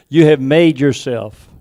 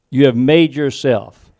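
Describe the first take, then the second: No difference in how they are said.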